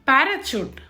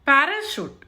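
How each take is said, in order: First: The last syllable starts with a ch sound. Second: The last syllable starts with a sh sound. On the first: The speaker calls it wrong. "పారాచూట్ కాదు" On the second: The speaker calls it right.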